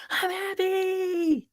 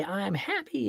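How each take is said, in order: First: Put-on very high, slow, drawn-out happy child voice; imitating child. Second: Said in the usual way. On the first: Father retelling son's reply, high childlike voice. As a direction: stretch it out like a beaming kid. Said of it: "And he goes". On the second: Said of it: "you can say".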